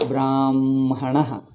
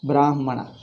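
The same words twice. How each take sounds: First: The m sound comes before the h. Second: The h sound comes before the m. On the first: It follows the traditional Vedic rule. "in pronunciation, we pronounce is Brahmana. Like this. Ma pronounced first" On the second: It follows the written order of letters. "First Ha is there, next Ma comes"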